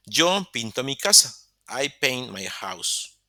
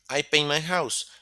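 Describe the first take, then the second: First: Slow and deliberate, word by word; slow model sentence. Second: Said in the usual way. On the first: Shown as a demonstration. Teacher reading the example slowly for students, deliberate pace. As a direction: spell it out slowly for the class. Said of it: "teacher models the example sentence". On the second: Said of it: "teacher repeats the example".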